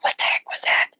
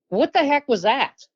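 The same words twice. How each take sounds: First: It is said as a whispered yell. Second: It is said at full, loud voice.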